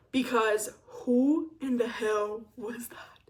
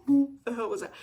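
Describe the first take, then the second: First: A slow, breathy whisper of horror. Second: Said in the usual way. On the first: Real, not acted. Whispering, cringing at her younger self. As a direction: hush it out slowly in disbelief.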